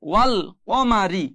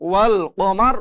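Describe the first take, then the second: First: The word ends with an i vowel. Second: The word ends with an r consonant.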